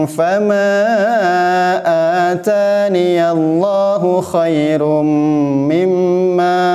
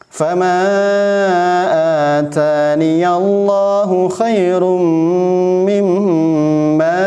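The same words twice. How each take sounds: The two takes are said the same way.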